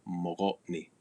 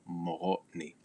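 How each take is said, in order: No difference in how they are said.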